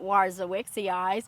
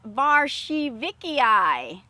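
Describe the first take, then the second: First: The name begins with a W sound. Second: The name begins with a V sound. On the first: The speaker calls it wrong. "it is not Warzawickii" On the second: The speaker calls it right. "to pronounce it correctly"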